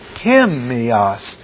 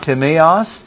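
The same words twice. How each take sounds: First: The stress falls on the first syllable. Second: The stress falls on a later syllable. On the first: The speaker calls it right. "the T-I will be all in capitals because that's the stressed syllables" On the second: The speaker calls it wrong. "It's not timios"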